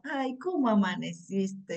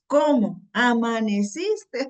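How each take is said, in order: First: It is said sweetly and affectionately. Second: It is said in an annoyed, fed-up way.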